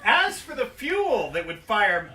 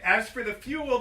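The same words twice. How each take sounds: First: Slower, louder restart through a laugh. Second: Said in the usual way. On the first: Real, not acted. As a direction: start over again, laughing. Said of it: "All right, anyway".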